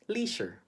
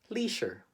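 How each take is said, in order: First: It is said with a Filipino English accent. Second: The same.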